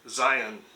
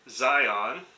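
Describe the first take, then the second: First: The last syllable is a weak uh sound. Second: The last syllable sounds like the word on. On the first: "the uh sound, like the O N in the word onion" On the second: "like the on switch of a light switch"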